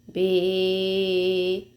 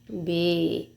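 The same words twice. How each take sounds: First: The sound is strong and held longer. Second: The sound is short and said normally.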